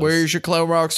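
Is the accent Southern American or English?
Southern American. It is said in a Southern American accent.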